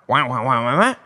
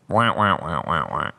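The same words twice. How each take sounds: First: It sounds lively and enthusiastic. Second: It sounds flat and unenthusiastic.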